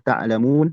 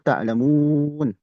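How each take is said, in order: First: The long vowel is held for two counts. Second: The long vowel is held for six counts. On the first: "dua harokat"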